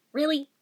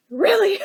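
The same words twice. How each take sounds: First: Said in the usual way. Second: Really pitched up and louder with a cry in it; a fake wail at bad luck; mock despairing whine. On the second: Real, not acted. The teacher's gone the day I have the answer, whining Really.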